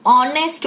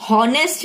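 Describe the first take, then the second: First: "ऑनेस्ट" said with a silent H, starting on O; correct pronunciation. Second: "हॉनेस्ट" said with a sounded H at the start; wrong pronunciation. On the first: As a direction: say "ऑनेस्ट" cleanly from the vowel. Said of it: "ऑनेस्ट बोलते हैं". ("ऑनेस्ट" सही उच्चारण, एच silent) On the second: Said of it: "हॉनेस्ट नहीं बोलते". ("हॉनेस्ट" में एच बोलकर, गलत उच्चारण) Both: Shown as a demonstration.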